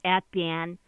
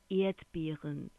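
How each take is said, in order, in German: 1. Das Wort hat eine regionale, mundartlich gefärbte Aussprache. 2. Das Wort hat eine standarddeutsche Aussprache. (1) "das hätte nicht Erdbeeren" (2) "dann lehrst du Hochdeutsch snacken"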